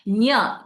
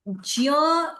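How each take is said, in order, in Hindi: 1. यह स्पष्ट सुनाई देने वाली nya ध्वनि है। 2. यह नासिकीकरण के साथ ja ध्वनि है। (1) "the nya sound should be heard very clearly" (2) "sort of nasalizing it like this than actually using the nya sound"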